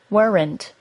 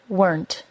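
First: The word is said with two syllables. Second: The word is said with one syllable. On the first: The speaker calls it wrong. "I often hear this accidentally pronounced as weren't by my students" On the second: The speaker calls it right. "Try to say it as one syllable"

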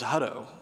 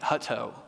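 First: The middle consonant is a soft D sound. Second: The middle consonant is a crisp T sound. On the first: "I just thought it was Hutto" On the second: "really enunciating the T's"

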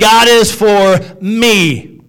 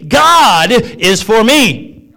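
First: The stress falls on the word me. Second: The stress falls on the word God.

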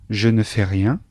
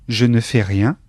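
The two takes are said the same way.

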